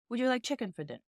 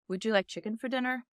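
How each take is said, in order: First: It is said with a British accent. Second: It is said with an American accent. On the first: "British would be more like" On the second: "English American would be"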